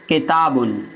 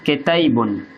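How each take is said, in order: First: The middle vowel is a plain open 'a'. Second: The middle vowel leans toward an 'e' sound.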